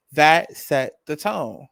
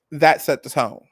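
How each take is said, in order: First: Drawn out, each word weighted; slow it down for emphasis; slow, weighty repeat; slow emphatic repeat. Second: Said in the usual way. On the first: Real, not acted.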